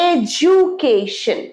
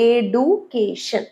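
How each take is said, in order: First: The second consonant sounds like a j. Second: The second consonant is a plain d sound. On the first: The speaker calls it right. "এটা হবে এডুকেশন" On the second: The speaker calls it wrong. "ভুল উচ্চারণ"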